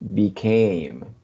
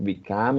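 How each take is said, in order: First: The second vowel sounds like 'ay'. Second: The second vowel sounds like 'uh'. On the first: The speaker calls it right. "It's became" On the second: The speaker calls it wrong. "You said like become or something like that"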